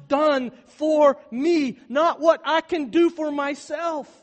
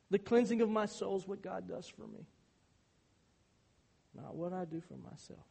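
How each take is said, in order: First: Very loud, very slow and higher; climactic proclamation. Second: Said in the usual way. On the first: Acted. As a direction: stretch each word out at full volume. Sermon climax, then calm restatement.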